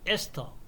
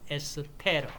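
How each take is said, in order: First: It has three syllables, ending in 'teo'. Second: It has four syllables, ending in 'reu'. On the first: This is the English-style pronunciation. "영어식" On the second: This is the German-style pronunciation. "독일식으로 발음"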